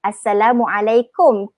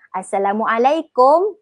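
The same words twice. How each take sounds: First: Assalamualaikum slow, ending in a U sound; correct short "kum". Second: Assalamualaikum slow, ending rises on an O sound; change the last vowel of Assalamualaikum to "kom"; Malay "kom" ending. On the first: Teacher giving learners the true form, Assalamualaikum ending "kum". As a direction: finish Assalamualaikum on a falling "kum", not "kom". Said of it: "yang sebenarnya". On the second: Teacher contrasting the Malay mistake, Assalamualaikum ending "kom". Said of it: "Tapi orang Melayu kita". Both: Shown as a demonstration.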